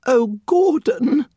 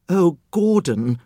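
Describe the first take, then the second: First: Slow, very high, frightened whimper; a drawn-out, trembling little whimper. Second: Quivering fear. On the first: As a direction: plead with him in fear. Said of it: "the woman whimpered". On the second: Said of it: "the woman's lips quivered". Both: Acted.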